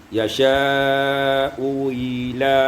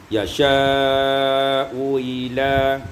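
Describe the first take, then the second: No difference in how they are said.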